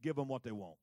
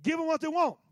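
First: Much lower, soft God voice; quiet and settled, like God speaking; God's calm verdict. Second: Higher, louder insistence; God's firm command. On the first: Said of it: "Watch what God says to Samuel". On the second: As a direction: declare it firmly. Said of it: "He says". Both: Acted.

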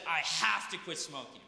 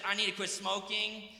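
First: "have" hit firm, a falling decisive tune; "have" said with a firm fall, resolved; stress on have. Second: "need" leaned on lightly, in a wishful tone; weight on "need", as a vague wish; stress on need. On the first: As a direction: punch "have" as if there's no choice. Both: Shown as a demonstration. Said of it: "the difference between someone who says".

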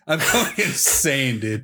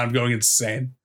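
First: Slow, laughing mid-phrase; laughing through it. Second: Said in the usual way. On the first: Real, not acted. To his friend about a silly wiki page, laughing. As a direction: break into a laugh on the words.

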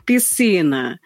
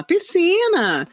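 First: "piscina" pitched low, ending in a small lift; downward inflection. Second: "Piscina" pitched high and drawn out slowly; upward inflection. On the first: Voice actor practising inflections, "piscina" said low. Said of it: "um pra baixo". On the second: Voice actor practising inflections, "Piscina" high and stretched. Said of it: "cada palavra tem um pra cima". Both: Shown as a demonstration.

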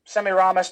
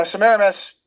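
First: "Semiramis" as sem-ee-RAH-mis; alternative pronunciation. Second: "Semiramis" as suh-MEER-uh-mis; first pronunciation variant. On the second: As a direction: stress the second syllable of "Semiramis". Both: Shown as a demonstration. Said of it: "depending upon how you pronounce it".

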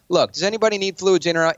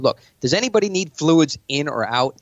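First: Higher and forceful, in command; aggressive opener. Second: Assured, casual take on the opener; confident meeting opener. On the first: Pointing at a billionaire in a pitch meeting, a forceful opener. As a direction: bark the opener to take charge. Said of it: "pointing at a billionaire". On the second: To investors at his meeting, a relaxed, in-control opener. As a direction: take the room with an easy question. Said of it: "start it like this". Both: Shown as a demonstration.

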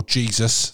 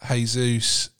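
First: "Jesus" said the English way, JEE-zus; plain English "Jesus", JEE-zus; English pronunciation. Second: "Jesus" said as hay-ZOOS, Spanish style; Spanish pronunciation. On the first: Presenter joking with the English name, JEE-zus. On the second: Presenter saying the striker's name as hay-zoos. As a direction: say "Jesus" the Portuguese way, hay-soos. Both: Shown as a demonstration. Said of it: "or Jesus to the rest of us".

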